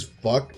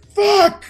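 First: Said in the usual way. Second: High, loud yell of a curse; sudden full-voiced, high-pitched shriek; imitated scream. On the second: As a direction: scream it out in shocked disbelief. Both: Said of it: "just screams".

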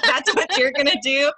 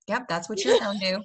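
First: Louder, higher, laughing disbelief; incredulous echo. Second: Put-on matter-of-fact hillbilly accent; podunk parent. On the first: Retold or imitated. American echoes the parent's odd line in laughing disbelief. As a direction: question it loudly through a laugh. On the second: Parent confirms it to the child in a podunk accent. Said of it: "This is, like, real podunk".

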